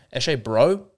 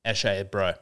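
First: "Eshe, bro?" rising at the end, unsure; questioning rise. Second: Low, street-lad Australian eshay voice; eshay accent. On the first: Shown as a demonstration. Repeats the phrase as unsure question. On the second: Acted. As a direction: drop into an eshay bro accent. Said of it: "still comes out a little bit".

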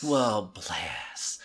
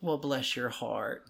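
First: Low, whispery Southern BLESS; hushed, pitying Southern put-down; ultimate veiled insult. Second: Slow, softer Southern sympathy; slow, condescending bless-your-heart; sweetly veiled insult. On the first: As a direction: let BLESS sink into hushed condescension. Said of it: "Bless is the ultimate". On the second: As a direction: draw it out, politely calling them an idiot. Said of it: "that means you're a fucking idiot". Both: Shown as a demonstration.

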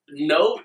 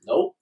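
First: Said in the usual way. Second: Squeaky high nope; high-pitched nope. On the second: Retold or imitated. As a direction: yelp it high. Quoting his own reaction.

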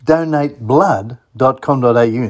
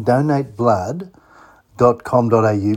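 First: Said in the usual way. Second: Slowed to dictation pace, donate blood drawn out; slow, for writing down. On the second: Shown as a demonstration. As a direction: spell it out slowly so listeners can note it. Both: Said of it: "Now, write that one down".

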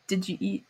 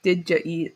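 First: "Did you eat?" slurred soft into one quick word; squished together. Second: Said in the usual way. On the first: Shown as a demonstration. Showing how locals squish the phrase together. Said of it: "very squished together". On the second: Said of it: "it's supposed to be like".

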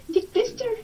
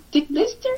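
First: Much higher, louder disbelieving squeak; incredulous squeal. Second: Shocked question. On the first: Repeats it even higher. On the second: Shocked repeat of odd phrase. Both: Real, not acted.

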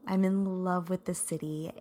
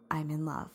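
First: Said in the usual way. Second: A soft, voiceless whisper; whispered confession. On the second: Real, not acted. Podcast host whispering her love for the city. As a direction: breathe it like a secret to the listeners.

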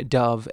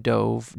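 First: DOVE as "duv", rhyming with love; bird dove. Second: DOVE with a long O, rhyming with drove; past-tense dove. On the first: Host contrasting heteronyms, dove said duv for the bird. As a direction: say "dove" with a short U sound. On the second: Host contrasting heteronyms, dove said dohv as in dived. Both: Shown as a demonstration. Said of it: "So the heteronyms being".

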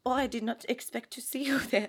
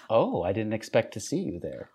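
First: A lightly put-on French accent, half-laughing; hammed-up French accent. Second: A first stab at a French accent, understated; mock French line. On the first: Host answers her co-host's prompt in a mock French accent. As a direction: lean into a mock French seductress line. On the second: Co-host tries a line in a light French accent. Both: Shown as a demonstration. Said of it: "give me something to say".

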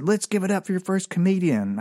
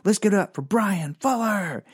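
First: Emcee announcing. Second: Higher, showy emcee voice announcing himself; hammed-up emcee announcing his own name; self-intro as emcee. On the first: Retold or imitated. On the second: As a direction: introduce yourself like a club host. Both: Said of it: "I said".

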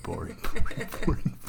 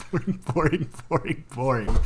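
First: Chanted, slow, breathy whispered boring, boring; chanted, drag out each boring in a whisper. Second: Singsong chant. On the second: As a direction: chant each boring brightly and up high. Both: Pretend. Chanting verdict on the film.

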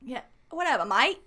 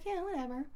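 First: Badly faked Aussie accent; half-successful Australian twang, jokingly put on; attempted Australian accent. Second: High, soft, offhand shrug; casual mock nonchalance, pitched up; retold indifference. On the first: Shown as a demonstration. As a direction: have a clumsy go at sounding Australian. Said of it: "I can't do an accent". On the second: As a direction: imitate unimpressed locals in own accent. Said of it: "And they're like".

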